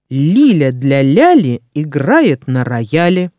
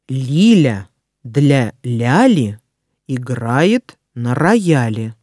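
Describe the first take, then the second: First: It is read at a fast pace. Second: It is read at a slow pace. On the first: "А затем я проговорю скороговорку быстро" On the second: "Сначала я прочитаю скороговорку медленно"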